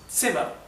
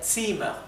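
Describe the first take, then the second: First: The first vowel is said short. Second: The first vowel is said longer. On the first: "pronunciación es Zimmer" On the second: "sería un poco más largo"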